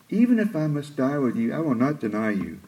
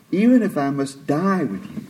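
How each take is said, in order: First: Mild scoffing repeat, trailing softer; lightly scoffing boast, fading off. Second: Scoffing. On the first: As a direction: scoff at the idea, a touch proud. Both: Retold or imitated. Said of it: "I can almost hear the scoffing in his voice".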